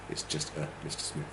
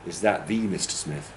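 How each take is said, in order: First: A as a quick, soft weak schwa before Mister Smith; unstressed article. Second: THE said as a full "thee" before Mister Smith; emphasis on THE. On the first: Teacher answering it's only somebody or other, A unstressed. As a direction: toss off "a" lightly and quietly. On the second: Teacher asking if he is the famous one, THE stressed. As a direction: lean on "the" as "THEE". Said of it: "put that emphasis on it". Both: Shown as a demonstration.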